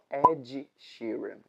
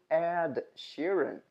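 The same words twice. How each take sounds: First: The first word ends in a j sound. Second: The first word ends in a plain d sound. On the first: The speaker calls it wrong. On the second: The speaker calls it right.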